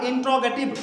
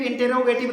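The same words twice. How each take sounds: First: इंट्रोगेटिव as "in-tro-ge-tiv"; recommended pronunciation. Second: इंटरोगेटिव as "in-te-ro-ge-tiv"; rejected pronunciation. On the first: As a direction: say इंट्रोगेटिव with "tr" run together, no vowel between. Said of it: "आपका Google भी यही बोलेगा". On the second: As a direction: say इंटरोगेटिव with a vowel between t and r. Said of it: "इंटरोगेटिव नहीं बोलेगा". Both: Shown as a demonstration.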